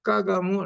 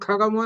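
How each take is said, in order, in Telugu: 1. మొదటి హల్లు ఊపిరి లేకుండా సాధారణంగా ఉంది. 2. మొదటి హల్లులో గట్టి ఊపిరి ఉంది. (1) "కాని చివరి కా చేసేస్తాడు" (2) "గట్టిగా పలకాలి కదా"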